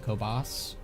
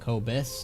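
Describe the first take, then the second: First: The name ends with a 'bahs' sound. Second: The name ends with a 'bus' sound. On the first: The speaker calls it wrong. "not the Kobas" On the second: The speaker calls it right. "It's the Kobus"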